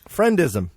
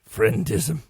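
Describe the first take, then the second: First: It is said in the speaker's normal voice. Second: It is said in a put-on Ocelot-like voice.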